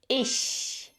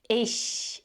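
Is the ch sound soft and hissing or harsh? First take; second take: soft; soft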